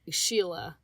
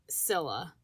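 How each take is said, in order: First: The name begins with an sh sound. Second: The name begins with an s sound. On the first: The speaker calls it right. "Sheila, not Scylla" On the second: The speaker calls it wrong. "not Scylla"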